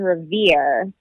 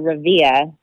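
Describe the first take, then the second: First: The final R sound is pronounced. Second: The final R sound is dropped.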